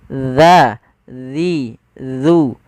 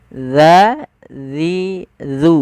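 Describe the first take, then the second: Both takes have the same delivery.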